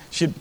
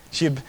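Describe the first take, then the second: No difference in how they are said.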